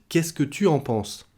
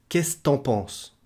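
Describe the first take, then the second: First: Every syllable is said in full. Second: Sounds are dropped and run together.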